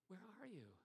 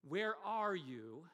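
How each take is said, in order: First: It sounds concerned and caring. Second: It sounds aggravated and annoyed.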